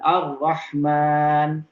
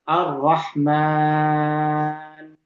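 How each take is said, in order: First: The long vowel is held for two beats. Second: The long vowel is held for six beats. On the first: "disebut dengan uh, qasr" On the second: "kalau kita panjangkan"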